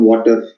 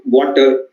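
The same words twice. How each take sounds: First: "water" with the last R clearly sounded; Indian-accented "water", final R pronounced; stressed final R. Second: "water" with the final R barely sounded; almost silent R. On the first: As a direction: lean on the R that ends "water". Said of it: "the last R". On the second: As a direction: let the R at the end of "water" nearly vanish. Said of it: "make the R almost silent". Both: Shown as a demonstration.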